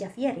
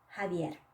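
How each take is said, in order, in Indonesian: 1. Bunyi pertamanya seperti j dalam bahasa Inggris. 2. Bunyi pertamanya seperti h. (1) "Bukan Javier ya" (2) "tapi Javier"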